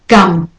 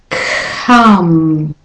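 First: The first consonant has no puff of air. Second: The first consonant has a puff of air.

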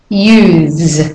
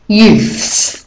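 First: The TH sound is voiced. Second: The TH sound is unvoiced. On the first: It is a plural meaning more than one youth. "we use the voiced TH" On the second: It is a possessive meaning belonging to the youth. "so it then becomes unvoiced"

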